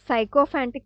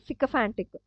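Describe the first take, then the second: First: The first syllable sounds like 'sigh'. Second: The first syllable sounds like 'sick'. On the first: The speaker calls it wrong. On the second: The speaker calls it right.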